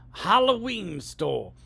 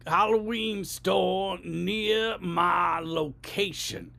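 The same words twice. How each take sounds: First: Slow, carefully spelled out for the phone; voice command. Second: Exasperated voice command. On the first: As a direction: speak so the robot can't miss it. Talking to phone map app. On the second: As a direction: lose patience with the map robot. Third try shouting at phone. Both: Shown as a demonstration.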